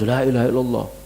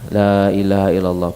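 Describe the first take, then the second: First: It is said hurriedly, run together. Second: It is said slowly, then a stop.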